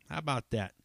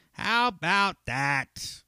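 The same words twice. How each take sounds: First: Said in the usual way. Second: "How about that?" stretched out slowly, high and loud; drawn-out emphasis. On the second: Real, not acted. Podcaster marvelling at his episode count, drawn-out emphatic "How about that?". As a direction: draw out each word of "How about that?", pitched up.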